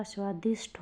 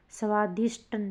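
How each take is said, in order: First: स्वादिष्ट ending in aspirated "ṭh"; correct, aspirated. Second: स्वादिष्ट ending in a hard unaspirated "ṭ"; no puff on the end of स्वादिष्ट; wrong, unaspirated. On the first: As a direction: puff of air ending स्वादिष्ट. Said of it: "होता है". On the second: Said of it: "अल्प प्राण हो गया है". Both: Shown as a demonstration.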